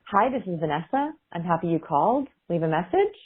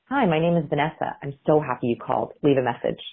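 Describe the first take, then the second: First: Phrases end with a rising, questioning tune. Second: Phrases end with a falling, confident tune.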